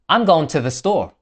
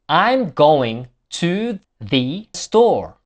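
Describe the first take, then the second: First: The small words are weakened to schwa. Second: The small words keep their full vowels.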